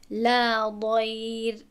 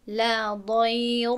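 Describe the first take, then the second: First: ضیر slow, ر thin; light r recitation. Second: ضیر with a thick ر as the wrong way; wrong heavy r. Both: Shown as a demonstration.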